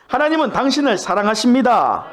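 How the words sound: It is said warmly, smiling, full of love.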